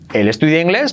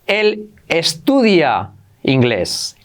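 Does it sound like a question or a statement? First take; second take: question; statement. First: It is said with question intonation. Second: It is said with statement intonation. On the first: It asks whether it is true. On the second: It states a fact.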